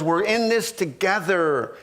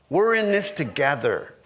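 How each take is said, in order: First: "this" lifted and stressed. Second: Lower, "We're" stressed, falling; stress on were. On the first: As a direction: lean on the word "this" in "We're in this together". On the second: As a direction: start low and hit "We're" in "We're in this together". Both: Shown as a demonstration.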